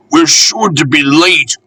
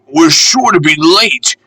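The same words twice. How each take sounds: First: Frantic, higher, with stress on "We're"; a fretful little engine panting "We're" hard; anxious puffing cry leaning on "We're". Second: Frantic, higher, with stress on "sure"; anxious puffing cry leaning on "sure"; frantic panting. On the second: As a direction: push the word "sure" in a worried rush. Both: A narrator's reading. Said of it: "panted Peter Sam frantically".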